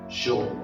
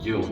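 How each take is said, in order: First: The first sound is a buzzing zh-like sound. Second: The first sound is a soft y-like sound. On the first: This is how it is said in Uruguay and Argentina. "on prononce dans nos pays ces deux lettres comme la fin de la mot voyage" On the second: This is the most neutral pronunciation. "vous en tenir à la prononciation la plus neutre"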